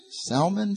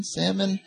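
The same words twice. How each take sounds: First: "Salmon" with the L sounded, questioning; L pronounced. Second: "Salmon" like the fish, SAM-un, questioning; silent L. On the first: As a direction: try out "Salmon" as SAL-mun, pitched high. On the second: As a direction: try "Salmon" without the L, pitched high. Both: Shown as a demonstration. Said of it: "Some people say salmon".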